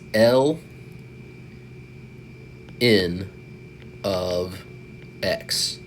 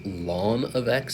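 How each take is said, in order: First: The letters L and N are said separately. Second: The letters L and N are said as one word. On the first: "We're just pronouncing the letters ln of" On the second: "another one which I can't say I ever really hear people say"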